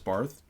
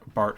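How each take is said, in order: First: The name ends with a th sound. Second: The name ends with a plain t sound. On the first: The speaker calls it wrong. "mispronouncing Barth, uh, Bart as Barth" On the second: The speaker calls it right. "mispronouncing Barth, uh, Bart as Barth"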